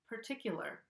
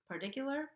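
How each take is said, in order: First: The T is a regular, clear T. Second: The T is a quick flap. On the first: The speaker calls it right. "An American English speaker would say particular" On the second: The speaker calls it wrong. "I'm not saying part- particular. I can't even say it with a flap T there"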